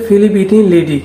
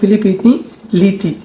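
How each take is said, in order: First: The last word is pronounced like 'lady'. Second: The last word is pronounced like 'liti'. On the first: This is how the boss said it. "ওই আমার বলতেছে ফিলিপিনি লেডি" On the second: This is the name's real pronunciation. "আসল উচ্চারণ হল ফিলিপিনি লিতি"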